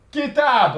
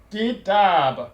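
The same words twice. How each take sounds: First: Kitab said high, stress on the final syllable; Arabic word kitab. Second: Kitab at normal pitch with a long falling ending; Arabic word kitab repeated. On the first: Teacher introducing the Arabic word for book, raised pitch. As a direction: present kitab raised and clear. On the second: Teacher repeats the word for book so students copy it. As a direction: repeat Kitab calmly for learners. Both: Shown as a demonstration. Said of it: "On va prendre le mot".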